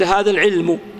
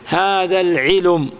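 First: The lam has no vowel before the final m. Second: The lam carries a u vowel before the m. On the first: "لو قلت هذا العلم" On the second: "وأردت أن تنقل الضمة إلى اللام"

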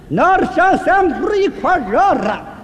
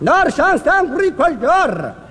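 First: The phrase is spoken even more slowly. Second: The phrase is spoken somewhat slowly. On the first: "那再慢点" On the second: "慢点"

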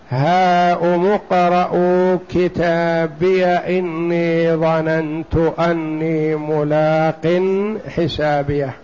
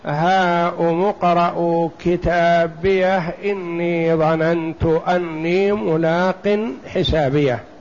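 First: The final h is dropped before the next word. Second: The final h is kept before the next word. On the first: "في الوصل ... بدونها" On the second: "يعني حتى لو وصل يقول"

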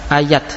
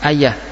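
First: The word ends with a plain t sound. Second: The word ends with an h sound. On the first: This is the attested pausal form keeping the t. "dibaca tak terbuka" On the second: This is the usual pausal form. "kalau di waqaf ayah dibaca ha"

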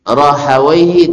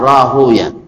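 First: The name ends with a long '-awaihi' sound. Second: The name ends with a short '-uyah' sound. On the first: This is how grammarians read the name. "Orang Nahu membacanya Rahawaihi" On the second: This is how hadith scholars read the name. "Tapi orang hadis biasanya Sibuyah"

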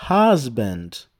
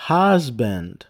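Both takes have the same delivery.

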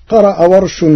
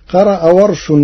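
No difference in how they are said.

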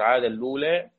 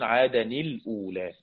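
First: The words merge with no glottal stop inside. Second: The words stay apart, linked by an n sound. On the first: This is one traditional reading of the phrase. "ورش وأبو عمرو عاد اللولا" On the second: This is the reading of the remaining readers. "والباقون"

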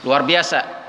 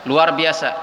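Both takes have the same delivery.

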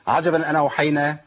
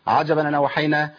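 Both takes have the same delivery.

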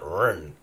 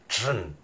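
First: It begins with an English R sound. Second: It begins with a J-like sound. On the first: The speaker calls it wrong. "not Ren" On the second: The speaker calls it right. "more like Jin"

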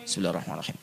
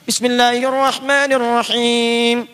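First: It is recited quietly under the breath. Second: It is recited aloud in a full voice. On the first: It follows the view that it is recited silently in prayer. "Imam Ahmad memilih sihir" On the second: It follows the view that it is recited aloud in prayer. "Asy-Syafi'i memilih jahr"

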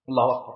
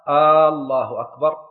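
First: No sound in the phrase is lengthened. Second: The opening hamza of the first word is lengthened. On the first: It is a statement that God is greatest. The speaker calls it right. "بأن يقول الله أكبر" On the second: It turns the phrase into a question. The speaker calls it wrong. "لو مد الهمزة في الله"

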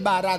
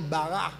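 First: The r is a tapped Spanish r. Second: The r sounds like a throaty h. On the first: "Cuando tú dices Bará" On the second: "la R en hebreo no suena. Suena como Ju"

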